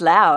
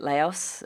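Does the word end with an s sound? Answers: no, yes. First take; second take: no; yes. First: The word ends without an s sound. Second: The word ends with an s sound. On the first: The speaker calls it right. "I think it's Lao, actually" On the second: The speaker calls it wrong. "I'm not saying that right, am I?"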